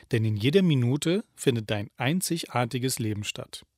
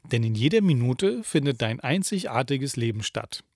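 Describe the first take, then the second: The two takes are said the same way.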